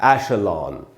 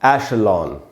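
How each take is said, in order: No difference in how they are said.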